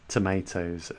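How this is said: It is said with an American accent.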